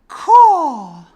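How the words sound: It is said trailing off, fading away.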